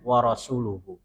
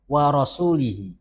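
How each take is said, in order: First: The word ends with u vowels: rasuluhu. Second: The word ends with i vowels: rasulihi. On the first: The messenger also disowns the idolaters. The speaker calls it right. "itu yang benar" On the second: God also disowns the messenger. The speaker calls it wrong. "dia bacanya begini"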